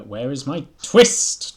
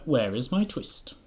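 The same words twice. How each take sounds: First: Slow, loud, higher demand with "twist" hit hard; louder, slower "where is my twist?" stretching "twist"; capital-letters demand. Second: Tailor's demand. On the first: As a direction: draw out "where is my twist" loudly. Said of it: "Twist, in capital letters". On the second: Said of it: "said the tailor". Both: A narrator's reading.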